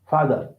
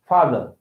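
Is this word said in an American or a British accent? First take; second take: British; British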